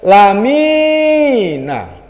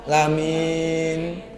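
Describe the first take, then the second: First: The word ends with a final short vowel. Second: The word ends on the n sound. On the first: "Kemudian lamina" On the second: "tapi dibaca lamin"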